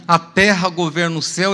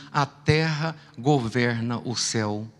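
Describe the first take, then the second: First: Said in the usual way. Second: Slow, low, quiet divine voice; voice of God. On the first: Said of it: "Eu falei". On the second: Retold or imitated. Preacher voicing God answering him, slow and hushed. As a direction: speak it slow and hushed like a voice from above. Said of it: "Deus disse pra mim assim".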